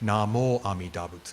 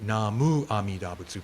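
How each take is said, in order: First: The first word ends with an 'mo' sound. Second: The first word ends with an 'mu' sound. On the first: This is how the tradition says it. "but it becomes Namo Amidabutsu" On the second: This follows the written character. "the technically correct pronunciation would be Namu"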